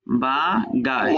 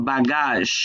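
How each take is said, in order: First: বাগাস very slowly, ba, pause, gaazh; teacher breaking বাগাস into two long syllables; syllable-by-syllable demonstration. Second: Said in the usual way. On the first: Shown as a demonstration. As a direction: stretch and separate the syllables of বাগাস. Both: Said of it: "জ sound হয়".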